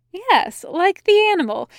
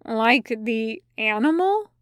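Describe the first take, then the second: First: High, louder, emphatic yes; upbeat and emphatic; eager confirmation. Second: Puzzled question. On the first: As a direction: confirm it brightly, pitch well up. Angel confirms brightly. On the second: Demon puzzled by odd question. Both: A narrator's reading.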